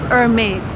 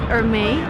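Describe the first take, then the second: First: The final S is sounded. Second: The final S is silent. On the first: The speaker calls it right. "You actually pronounce the last S" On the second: The speaker calls it wrong. "I would suppose you pronounce it Hermé"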